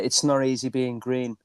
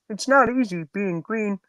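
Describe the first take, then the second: First: It is said in his own normal voice. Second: It is said in a Kermit the Frog voice.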